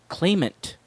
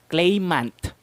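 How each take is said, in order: First: The unstressed vowels are reduced to schwa. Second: The unstressed vowels are full and clear. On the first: The speaker calls it right. "how I pronounce it" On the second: The speaker calls it wrong. "how Filipinos would usually pronounce it"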